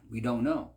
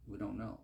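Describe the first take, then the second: First: Louder, pressing down on know; emphatic. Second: Quieter, leaning on don't; soft echo. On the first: Preacher declaring to the congregation, emphatic. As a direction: declare we don't know with force. Repeated line, first take louder. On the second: Preacher echoing himself to the congregation, softly. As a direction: let we don't know fall away softly. Repeated line, second take softer. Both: Acted.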